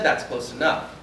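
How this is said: It sounds like a firm, commanding statement. The speaker is ordering the person to stop. "Now I have to tell. ... Did you feel my verbal inflection change?"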